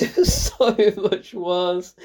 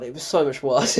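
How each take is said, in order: First: Slow, stretched SO through laughter; laughing emphasis. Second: Said in the usual way. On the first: Real, not acted. Critic repeating how much worse it was, laughing. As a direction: laugh as you drag out the verdict.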